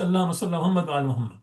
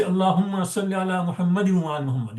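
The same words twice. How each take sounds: First: Rapid "Muhammad wa" without the in ending; forbidden joined form. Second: Brisk "Muhammadin wa" with the in ending; required joined form. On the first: Teacher showing what you can't say, rushed bare "Muhammad". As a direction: race through, leaving "Muhammad" bare before "wa". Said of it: "You can't say". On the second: Teacher giving the tashahhud form, brisk linked "Muhammadin". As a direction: recite quickly, sounding the ending of "Muhammadin". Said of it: "you have to say". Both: Shown as a demonstration.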